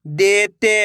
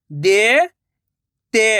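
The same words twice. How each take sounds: First: Said in the usual way. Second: देते drawn out slowly, syllable by syllable; slow syllable split. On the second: Shown as a demonstration. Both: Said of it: "मैं किस तरीके से".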